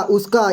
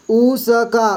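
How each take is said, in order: First: Said in the usual way. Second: उसका drawn out as ऊ, स, का; syllable by syllable. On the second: Shown as a demonstration. Teacher sounding out a word for beginners, syllable by syllable. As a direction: split उसका into slow separate sounds.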